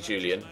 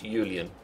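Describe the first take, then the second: First: The name begins with a J sound. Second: The name begins with a Y sound. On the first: This is the English form of the name. "If he was English, it'd be Julian" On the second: This is the German form of the name. "but he's German, so it's Julian. It's pronounced with a Y"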